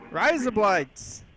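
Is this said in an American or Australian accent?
Australian. It is said in an Australian accent.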